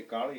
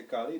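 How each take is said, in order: First: Kali as in Bengal, tongue rolled on the l; Bengali rolled-tongue Kali. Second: Said in the usual way. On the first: Shown as a demonstration. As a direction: roll the tongue a bit saying Kali. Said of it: "have to roll the tongue a bit". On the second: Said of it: "when they say Kali".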